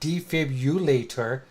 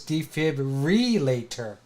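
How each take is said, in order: First: The middle is said as 'bulator' without an R. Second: The middle is said as 'brillator' with an R. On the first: The speaker calls it wrong. "It's not" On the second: The speaker calls it right. "It's defibrillator"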